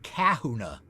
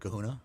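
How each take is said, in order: First: The stress is on the first syllable. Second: The stress is on the second syllable.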